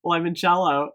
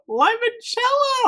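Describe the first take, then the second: First: Said in the usual way. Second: Very high, drawn-out delighted cry of Limoncello; excited squeal. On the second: Real, not acted. Reviewer crying out Limoncello to viewers in delight. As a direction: shriek Limoncello with joy. Bursts out naming the candle.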